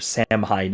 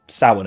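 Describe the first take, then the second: First: The name is pronounced in an anglicized way. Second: The name is pronounced the Celtic way. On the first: "if you want" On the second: "if you're actually pronouncing it the Celtic way"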